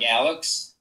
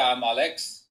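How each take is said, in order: First: The name is said with an American pronunciation. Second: The name is said with a Turkish pronunciation. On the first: This is how people in the US say it. "In U S, it's like Alex" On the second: This is how people in Turkey say it. "So I come from Istanbul, Turkey. So over there"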